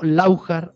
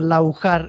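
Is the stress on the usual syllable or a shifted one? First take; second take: shifted; usual. First: The stress falls on a shifted syllable. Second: The stress falls on the usual syllable. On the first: The speaker calls it wrong. "con el tilde donde no es" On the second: The speaker calls it right. "Hay otro pueblo en Almería que se llama Laujar"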